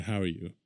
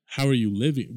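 First: Low, soft throwaway greeting; lower-key, perfunctory greeting; routine greeting. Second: "How are you living?" louder and pointed; "How are you living?" as a pointed question; emphatic question. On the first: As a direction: toss it off as a routine question. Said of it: "when someone says". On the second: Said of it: "it puts more emphasis". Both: Shown as a demonstration.

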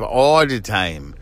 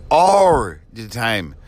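First: "all" said with its L; L kept in "all". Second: Slow "All" ending in an R sound; L turned to R. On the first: Host talking of mixed-up words, L sounded in "all". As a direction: say "all the time" keeping the L in "all". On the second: Host mocking mixed-up words, "All" said with R. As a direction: say "All" as "or", drawn out. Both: Shown as a demonstration. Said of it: "are L's R's".

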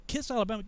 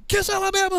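First: Higher, soft question; mildly acted confusion; puzzled echo. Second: High, loud command; insistent sergeant shout; barked repeat. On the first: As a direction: repeat the order back, baffled. Recruit questions order. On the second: Retold or imitated. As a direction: yell the order at the recruit. Sergeant yells order.

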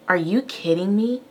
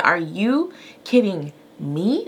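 First: Mildly indignant imitation of a child; imitated son's tone. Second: Slow, incredulous stress on "you", rising on "me"; turning it back. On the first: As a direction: retell his cheeky question with rising disbelief. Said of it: "in that tone". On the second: Retold or imitated. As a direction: throw it back word by word, leaning on "you". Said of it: "I turned it back on him".

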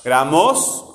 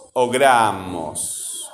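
First: "Gramos" as graMÓS, rising on MOS; slow "Gramos" stressed on the last syllable; wrong final stress. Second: "gramos" as GRAAmos, falling; slow "gramos" with a strong GRA, dropping away; stress on GRA. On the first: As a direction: lift and stretch the MOS of "Gramos". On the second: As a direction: stretch the first syllable of "gramos". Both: Shown as a demonstration. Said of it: "¿cómo digo yo?".

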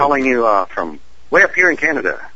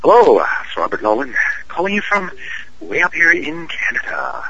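First: Light Canadian accent. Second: Canadian voice. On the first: Guest calling the host from up north, light Canadian voice. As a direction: say it with a touch of put-on Canadian accent. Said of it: "That's my Canadian voice". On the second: Guest repeating his call on request, hammed-up Canadian voice. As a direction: ham up the Canadian accent in separate phrases. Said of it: "do it one more time". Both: Shown as a demonstration.

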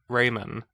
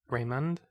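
First: Said in the usual way. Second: "Raymond" with a full "man" in the second syllable; "Raymond" asked softly, second vowel as in "man"; questioned pronunciation. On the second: Real, not acted. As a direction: say "Raymond" as ray-MAND, unsure. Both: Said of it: "Is it Raymond or Rayman?".

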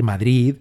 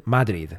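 First: Madrid stressed on the end, "ma-DRID"; stress on final syllable. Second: Madrid stressed on the first syllable, "MA-drid"; American pronunciation. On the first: Shown as a demonstration. Host shows the correct stress, Madrid as "ma-DRID". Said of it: "con el acento en la sílaba tónica, que es drid". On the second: Retold or imitated. Host imitates Americans, Madrid as "MA-drid". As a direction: punch the MA of Madrid. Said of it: "en Estados Unidos dicen".

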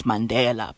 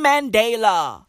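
First: Mandela with a short open "deh" in the middle; South African Mandela, short "DEH"; local pronunciation. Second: Mandela with a long "day" in the middle; anglicised Mandela, stretched "DAY"; international pronunciation. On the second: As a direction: say Mandela the global way, "man-DAY-la". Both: Shown as a demonstration. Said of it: "Even though it's Mandela".

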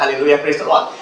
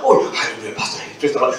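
First: Said in the usual way. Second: Imitated low-pitched, subdued hallelujah; changed voice. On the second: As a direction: drop the voice on recognizing the pastor. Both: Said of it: "Suaranya berubah".

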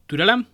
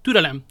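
First: "Türelem" higher and louder, rising at the end; "Türelem" lifted upward like a query; questioning rise. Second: Loud command with a falling end; sharp, loud order; called out. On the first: Same word repeated, questioning rise. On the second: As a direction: call out for patience, firmly. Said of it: "Kiáltott D'Artagnan". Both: A narrator's reading.

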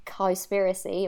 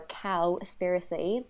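First: Said in the usual way. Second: Cowspiracy in a light English accent. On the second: Shown as a demonstration. The English accent take on Cowspiracy, mild. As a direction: switch Cowspiracy into a posh-leaning English accent. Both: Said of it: "if you wanna say it in an English accent".

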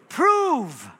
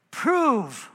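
First: Prove rising then falling hard; emphatic repeat. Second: Prove said slowly and firmly; stressed word. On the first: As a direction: hit Prove for the congregation to echo. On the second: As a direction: lean on Prove. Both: Shown as a demonstration. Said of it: "say that word with me".

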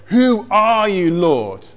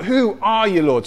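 First: Higher, drawn-out cry on "who are you"; shouted question. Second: Higher-pitched but mild mock shout; quicker call of bewildered questioning; acted shout. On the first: Acted. Blinded Saul to the voice from heaven, acted calling out. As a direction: call out to an unknown voice from the floor. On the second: Saul crying out to the unseen voice, mildly shouted. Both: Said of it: "He shouts out".

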